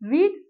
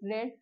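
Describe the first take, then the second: First: The vowel is long, like in 'reed'. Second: The vowel is short, like in 'red'. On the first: It is the present form of the verb. "रीड का मतलब होता है पढ़ना" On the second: It is the past form of the verb. "इसे हम pronounce करेंगे रेड"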